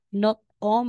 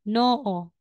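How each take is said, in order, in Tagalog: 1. May naririnig na tunog na t bago ang huling patinig. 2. Walang naririnig na tunog na t bago ang huling patinig. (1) "aside na sasabihin mong not-o" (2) "magiging noo"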